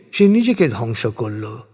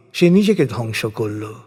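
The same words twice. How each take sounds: The two takes are said the same way.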